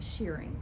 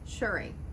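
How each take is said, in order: First: The first vowel sounds like 'ear'. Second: The first vowel sounds like 'er'. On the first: The speaker calls it wrong. "I was always saying shearing, but it's not" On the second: The speaker calls it right. "It's shirred"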